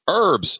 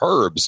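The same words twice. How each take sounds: First: It is said with an American accent. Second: It is said with a British accent.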